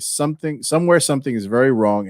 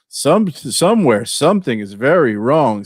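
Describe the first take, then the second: First: It is read in a neutral tone. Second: It is read in a sarcastic tone. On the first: The reader takes the claim at face value. The speaker calls it right. "I'll try to read it properly" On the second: The reader doubts the claim. The speaker calls it wrong. "it's hard for me not to read"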